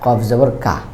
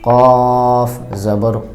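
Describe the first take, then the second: First: The vowel is a thin, open 'aa' sound. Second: The vowel is a thick, heavy sound. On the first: The speaker calls it wrong. "এটা হবে না" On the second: The speaker calls it right. "একটু মোটা ধরনের হবে"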